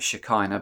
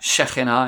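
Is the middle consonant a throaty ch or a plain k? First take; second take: plain k; throaty ch. First: The middle consonant is a plain k sound. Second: The middle consonant is a throaty ch sound. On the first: "Most people pronounce that as Shekinah" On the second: "in Hebrew it's pronounced as Shekhinah, the KH being a ch. Like that"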